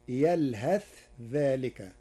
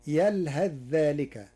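First: يلهث with clear tha "yalhath" before ذلك; Warsh reading. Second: يلهث ذلك merged "yalhadh-dhalik"; Hafs reading. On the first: Sheikh showing Warsh's clear tha in يلهث. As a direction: keep يلهث's tha distinct. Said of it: "بالإظهار وصلا". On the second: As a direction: assimilate the tha of يلهث into ذلك. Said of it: "قرأ ورش كلمة يلهث". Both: Shown as a demonstration.

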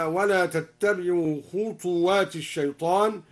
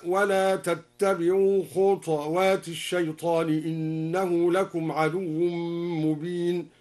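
First: Said in the usual way. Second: خطوات said khuṭwāt with a still ṭ, slow; Duri reading. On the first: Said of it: "هكذا". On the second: Shown as a demonstration. Teacher reciting al-Duri's reading, slow tartil. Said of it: "سكن الدوري الطاء هكذا".

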